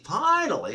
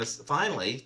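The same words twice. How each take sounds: First: Finally said higher, stretched with relief; finally pitched up in relief; emphatic finally. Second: Said in the usual way. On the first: Shown as a demonstration. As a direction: lean hard on finally.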